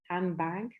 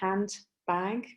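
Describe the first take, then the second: First: Said quickly, with no d and n like m. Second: Said carefully, with a clear d and n. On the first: "de is not pronounced, and also then n becomes more like m" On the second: "when they pronounce it very carefully"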